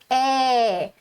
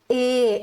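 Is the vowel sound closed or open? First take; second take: open; closed. First: The vowel is said open. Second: The vowel is said closed. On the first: "quando eu tenho um acento agudo" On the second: "quando eu tenho acento circunflexo, eu faço E"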